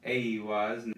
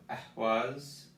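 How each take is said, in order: First: Aiwaz opening on a hard A, no H. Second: Ehwaz slowly, leaning on the E and a breathy H; stress on E and H. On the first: Teacher contrasting the two rune names, hard A. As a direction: say Aiwaz with a clear hard A start. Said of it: "while this is Aiwaz". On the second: Teacher contrasting the two rune names, stressed E and H. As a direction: pronounce Ehwaz with weight on the E and H. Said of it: "the emphasis is on the E and the emphasis on the H". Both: Shown as a demonstration.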